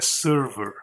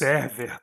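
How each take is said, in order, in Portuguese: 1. Ela é dita com sons do inglês. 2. Ela é dita com sons do português. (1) "o Windows é server" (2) "Todas essas pronúncias elas só funcionam aqui no Brasil"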